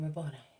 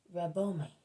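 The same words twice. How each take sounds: First: "Rabboni" with an N in the last syllable, "-nigh". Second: "Rabboni" with M replacing the N, "Rabbomi". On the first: Narrator gives the gospel spelling, "Rabboni" pronounced with N. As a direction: say "Rabboni" ending on an N sound. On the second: Narrator imitates Mary's pronunciation, "Rabboni" said with M. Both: Shown as a demonstration. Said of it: "with an M and not with an N".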